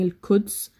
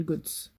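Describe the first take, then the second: First: The word starts with a plain k sound. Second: The word starts with a hard g sound.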